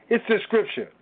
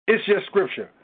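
Both takes have the same delivery.

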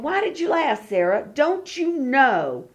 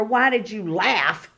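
First: Gentle encouragement. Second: Flat, scolding question; a hint of a stern master demanding an answer; stern rebuke. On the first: Retold or imitated. God gently coaxing Sarah hiding behind the tent door, tender. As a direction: coax her kindly to believe. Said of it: "But he's going". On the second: God, not meaning it as a scold, voiced as a mild scold. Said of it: "he's not saying it to her".

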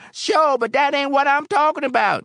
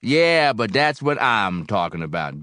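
First: Loud, high-pitched objection; exasperated bar patron cutting in high and loud; impatient protest. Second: Mildly mournful, falling after a loud "Yeah". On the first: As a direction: protest loudly, pitched right up. Patron protests to barkeep's questions. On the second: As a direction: start firm, then sink into a touch of sorrow. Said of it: "Barrel House said mournfully". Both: A narrator's reading.

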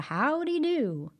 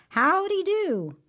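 First: High, slow folksy hello; friendly greeting. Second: High, loud, slow called-out howdy; hearty greeting. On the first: Brer Rabbit greeting folks on the road, cheery high call. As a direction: tip your hat to a passerby. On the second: Brer Rabbit calling out to the tar baby, loud cheery hail. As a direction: hail someone down the road. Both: Acted.

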